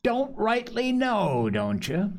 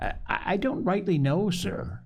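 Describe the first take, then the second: First: High, drawn-out mocking repeat; mocking echo. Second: Hesitant, higher-pitched stammered answer; nervous stammer. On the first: Silver mocks Morgan's feeble answer, scornfully. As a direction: throw it back slowly, high then dropping. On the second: Morgan answers the stern landlord, stammering nervously. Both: A narrator's reading.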